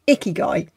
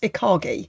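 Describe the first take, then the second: First: The word is said as i-ki-gai. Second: The word is said as i-ka-gi. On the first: The speaker calls it right. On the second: The speaker calls it wrong.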